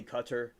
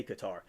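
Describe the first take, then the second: First: Qatar said CUT-er; first of both ways. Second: Qatar said kuh-TAR; preferred pronunciation. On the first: Reading Miranda's chat message, Qatar said CUT-er. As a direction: say Qatar with stress on the first syllable, like "cutter". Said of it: "say it both ways". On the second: Reading Miranda's own preference, Qatar said kuh-TAR. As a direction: say Qatar with stress on the second syllable. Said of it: "but I say Qatar". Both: Shown as a demonstration.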